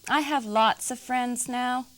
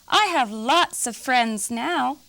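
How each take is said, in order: First: It is said at a normal, quieter volume. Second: It is said very loudly.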